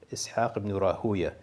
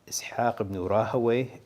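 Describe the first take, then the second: First: The surname is said as Rah-uya. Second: The surname is said as Ra-ha-wayh. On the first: "the two most common ones are" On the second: "the two most common ones are"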